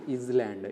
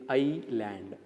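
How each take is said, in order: First: The S sound is pronounced in the middle. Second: The S sound is silent in the middle. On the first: The speaker calls it wrong. "not island" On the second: The speaker calls it right. "S becomes silent here"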